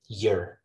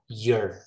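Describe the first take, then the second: First: The vowel is weak and reduced. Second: The vowel is full and clear.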